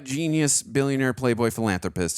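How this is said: It is said in a cocky tone.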